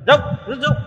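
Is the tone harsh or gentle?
harsh. It is said harshly and curtly.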